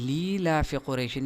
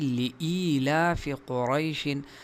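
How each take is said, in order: First: The glottal stop in the first word is softened. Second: The glottal stop in the first word is clear. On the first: The speaker calls it wrong. "बाज़ लोग इस हमज़ा को भी नरम पढ़ते हैं" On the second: The speaker calls it right. "हालांकि"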